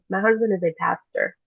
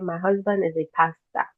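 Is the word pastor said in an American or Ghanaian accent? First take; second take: American; Ghanaian. First: It is said in an American English accent. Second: It is said in a Ghanaian English accent. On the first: "United States of America English, I'll say pastor" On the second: "if I'm speaking Ghanaian English"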